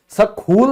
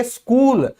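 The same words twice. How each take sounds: First: स्कूल as "suh-khool", two syllables; wrong pronunciation. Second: स्कूल as "skool", plain K in one syllable; correct silent H. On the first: Teacher showing the mistake स्कूल, said as "suh-khool". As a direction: say स्कूल with extra vowel and aspirated KH. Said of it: "नहीं बोलेंगे". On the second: Teacher giving students स्कूल, plain K, one syllable. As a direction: say स्कूल with an unaspirated K. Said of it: "तो इसको हम क्या कहेंगे". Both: Shown as a demonstration.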